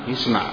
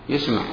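No difference in how they are said.

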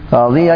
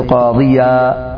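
First: The word ends in -an, linked onward. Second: The word ends in a long vowel, no n. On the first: The word runs on into the next word. "لو وصلت تقول" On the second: The word stands at a pause. "إذا أوقف عليه يوقف عليه بألف"

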